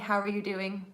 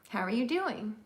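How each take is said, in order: First: It is said without a questioning tune. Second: It is said with a questioning tune. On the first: The speaker calls it wrong. "We don't say" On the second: The speaker calls it right. "when we ask a question, we usually say it a specific way"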